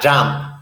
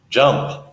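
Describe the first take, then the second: First: The vowel is a fuller, non-schwa sound. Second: The vowel is a relaxed schwa sound. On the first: The speaker calls it wrong. "not jump" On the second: The speaker calls it right. "Make your mouth very lazy"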